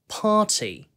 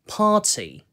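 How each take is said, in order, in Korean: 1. 영국식 억양, t가 또렷하게 발음됩니다. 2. 영국식 억양, t가 또렷하게 발음됩니다.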